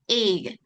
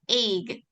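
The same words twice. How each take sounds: Both takes have the same delivery.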